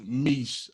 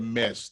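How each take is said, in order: First: The vowel sounds like the 'i' in 'fish'. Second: The vowel sounds like the 'e' in 'mesh'. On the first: The speaker calls it right. "So it's pronounced Mish" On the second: The speaker calls it wrong. "I said Mesh. That wasn't the name"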